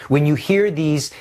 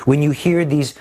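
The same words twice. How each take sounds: The two takes are said the same way.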